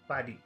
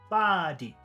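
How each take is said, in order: First: Both vowel sounds are short. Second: The first vowel is long, the second short. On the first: "If we made both of the sounds in number one short, it should sound like this" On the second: "If we did long and short, it would sound like number three"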